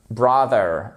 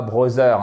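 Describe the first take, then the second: First: Brother with a voiced English th; English pronunciation. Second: Brother said as French "brozeur"; French-accented mispronunciation. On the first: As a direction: say brother as an English word, th not z. (brother prononcé à l'anglaise, avec th) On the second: (brother à la française, prononcé « brozeur ») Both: Shown as a demonstration. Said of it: "et pas brother".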